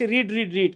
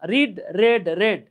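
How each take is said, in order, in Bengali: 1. তিনটি শব্দেই লম্বা 'ee' স্বর আছে। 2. শেষের দুটি শব্দে ছোট 'e' স্বর আছে। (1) "আমরা অনেকে এভাবে পড়ে আসছি রিড রিড রিড" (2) "পাস্ট এবং পাস্ট পার্টিসিপল ফর্মে গেলে এটার উচ্চারণটা রেড হয়ে যায়"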